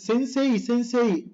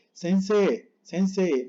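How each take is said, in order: First: Sensei pitched up, with a clear "ee" ending; higher sensei with an overdone EI glide; forced final I. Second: Sensei with barely any final I; just a trace of glide closing sensei; very soft I. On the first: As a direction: push the I at the end of sensei. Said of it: "estás forzando la I". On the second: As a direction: let sensei end on a long "eh". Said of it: "pero muy suave". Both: Shown as a demonstration.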